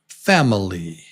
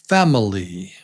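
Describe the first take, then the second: Both takes have the same delivery.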